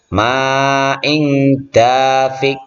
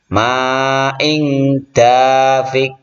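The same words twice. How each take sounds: Both takes have the same delivery.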